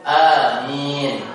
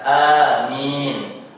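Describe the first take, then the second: Both takes have the same delivery.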